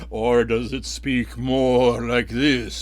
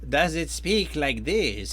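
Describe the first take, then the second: First: The voice sounds intimidating and menacing. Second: The voice sounds sneaky and sly.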